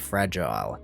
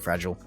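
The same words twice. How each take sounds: First: The word is said slowly with strong emphasis. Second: The word is said quickly and casually. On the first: The speaker is warning someone to be careful. "okay, careful, that box over there" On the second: The speaker does not really care. "just being super fast and just not caring"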